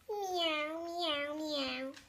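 It is meowed in a happy voice.

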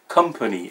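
The word is said with an English accent. The speaker calls it right. "everybody will say company"

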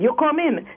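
It is said as a command.

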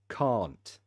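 It is said with a British accent. "British English"

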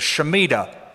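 The word is pronounced in an American style. "If you prefer the American pronunciation"

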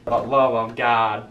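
It is said in a pleading, begging tone.

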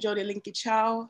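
The name is said with a Jamaican pronunciation. "I could say it in Jamaican"

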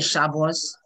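The word ends with an s sound. The speaker calls it wrong. "We're not going to say Shabbos"

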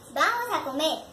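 It is said as an emotive exclamation.

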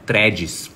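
The word is said with Brazilian Portuguese pronunciation. "no dia a dia no Brasil, na moral"

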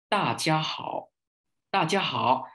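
It is said native-like, mouth opened very wide. "nói hay, diễn thuyết hay, người ta làm sao? ... miệng người ta mở rất rộng"

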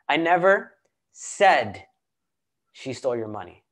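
The stress falls on the word 'said'. It was implied, not said outright. "I didn't say it. I possibly implied it"

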